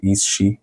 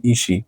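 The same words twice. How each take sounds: First: Said in the usual way. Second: "is she" run together as "ishee"; silent S. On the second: Shown as a demonstration. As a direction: merge the S of "is she" into the sh, "ee-shee". («is she» پیوسته و بدون صدای S، مثل «ایشی»)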